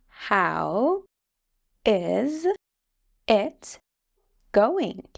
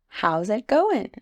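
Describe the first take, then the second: First: The phrase is said slowly and fully. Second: The phrase is said quickly and run together.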